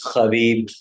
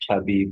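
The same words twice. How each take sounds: First: The name begins with a plain H sound. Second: The name begins with a K-like sound.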